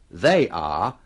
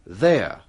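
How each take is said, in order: First: Two separate words, with the full vowel. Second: One short syllable, with the vowel dropped. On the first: The speaker calls it wrong. "kita biasanya tidak mengatakan" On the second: The speaker calls it right.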